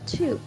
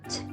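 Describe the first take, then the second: First: The word is said in its full form. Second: The word is reduced to a short weak form.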